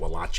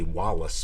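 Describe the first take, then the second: First: The name is said with a European-style pronunciation. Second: The name is said the usual English way. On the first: This is the speaker's own preferred way. "but I pronounce it Wallace. After all, I do do go with the European pronunciation" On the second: This is how the name is really said. "It's really Wallace"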